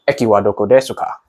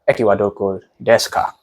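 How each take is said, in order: First: The u in desu is clearly pronounced. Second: The u in desu is silent. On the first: The speaker calls it wrong. "if you were to read it without hearing it, you read it as ... So you can hear the desu" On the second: The speaker calls it right. "but in reality, it's actually"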